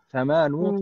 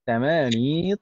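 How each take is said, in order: First: The word ends with a 'u' vowel. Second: The word ends with an 'i' vowel. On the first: The speaker calls it wrong. "terkadang ada yang uh, salah membaca dibaca misalnya samanu" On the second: The speaker calls it right. "ya-nya tetap samani begitu"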